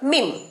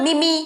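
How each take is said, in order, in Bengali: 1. এটা একটাই অক্ষর, লম্বা ee স্বর। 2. শেষে একটা বাড়তি ee স্বরধ্বনি আছে। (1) "সঠিক উচ্চারণ" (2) "ভুলভাল উচ্চারণ"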